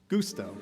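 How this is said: It is said with an Italian-style pronunciation.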